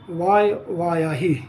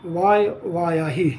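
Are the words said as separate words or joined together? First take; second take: joined; joined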